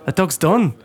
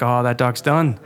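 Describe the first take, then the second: First: Lightly put-on Irish lilt; mock Irish accent. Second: Said in the usual way. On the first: Passer-by writing off the stranded dog, mock Irish accent. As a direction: imitate an offhand Irish passer-by. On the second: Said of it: "people walking by that were just like".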